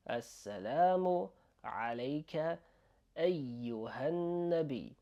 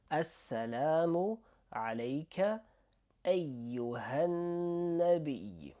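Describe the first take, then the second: No difference in how they are said.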